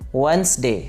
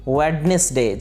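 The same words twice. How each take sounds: First: The middle D sound is silent. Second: The middle D sound is pronounced. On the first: The speaker calls it right. "डी इसके अंदर silent है" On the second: The speaker calls it wrong. "इसे गलती से pronounce किया जाता है"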